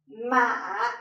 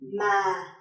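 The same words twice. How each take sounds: First: The pitch dips down and then rises again. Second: The pitch starts low and falls further. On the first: "a low falling and rising tone" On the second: "a low falling tone"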